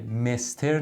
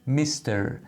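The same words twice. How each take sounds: First: "مستر" with a short e, like "mester"; mispronounced mister. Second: "میستر" with an ee-like first vowel; mister with ee. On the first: Teacher warning learners off it, "مستر" mispronounced with e. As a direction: say "مستر" wrongly, e in the first syllable. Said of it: "یادتون باشه مستر نیست". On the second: Teacher modelling for learners, "میستر" with a slight ee sound. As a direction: say "میستر" as "mee-ster", first vowel toward ee. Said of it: "یه کمی صدای ای داره". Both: Shown as a demonstration.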